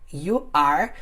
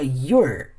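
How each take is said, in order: First: Both words are said fully and separately. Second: The two words merge into one syllable.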